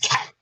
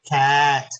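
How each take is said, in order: First: The word is said fast, sounds blended. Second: The word is said slowly, sounds drawn out.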